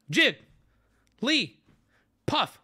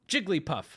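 First: JIG, LEE, PUFF as isolated high beats; big spaces between syllables. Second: Said in the usual way. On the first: Shown as a demonstration. Streamer leading everybody again, syllables widely spaced. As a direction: leave a long gap after each of Jig, Lee, Puff. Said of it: "Big spaces in between them". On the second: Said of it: "All at once".

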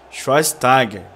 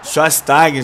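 First: "Schweinsteiger" said shy-stah-ger with clear sh start and final r; "Schweinsteiger" sounded out deliberately, sh and r; careful corrected name. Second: "Schweinsteiger" mumbled as sass-tah-geh, first sounds garbled; "Schweinsteiger" said loosely, no sh, no r; unsure mangled name. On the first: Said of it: "Acho que é assim, né, que fala". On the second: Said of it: "sei lá como é que chama esse maluco". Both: Shown as a demonstration.

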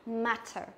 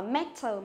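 First: "matter" with a wide, open æ; correct E bẹt matter. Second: First "matter" with a narrow e, like "metter"; wrong E in matter. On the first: Teacher corrects the mistake, open-mouthed "matter". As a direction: widen the first vowel of "matter". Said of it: "mà là matter". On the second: Teacher shows students the mistake, "matter" as "metter". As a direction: close the first vowel of "matter" to a plain e. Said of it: "không đọc là matter". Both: Shown as a demonstration.

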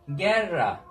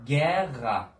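First: Guerra with a hard g and plain r; Guerra, slow, hard rr as written; wrong pronunciation. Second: Guerra with a throaty h-like rr, geha; correct pronunciation. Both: Shown as a demonstration. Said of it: "Guerra değil".

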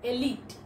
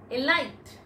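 First: Elite said as ee-LEET; correct pronunciation. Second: Elite. said as ee-LYTE; Elite. said wrongly, as ee-LYTE; common mispronunciation. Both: Shown as a demonstration.

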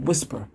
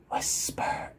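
First: Said in the usual way. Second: Hushed, fully whispered word. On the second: Shown as a demonstration. Examiner announcing the next voice level, whispered. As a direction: whisper it softly.

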